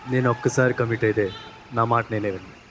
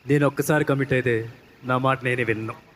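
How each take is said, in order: First: It is said softly, with little energy. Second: It is said forcefully, with more energy.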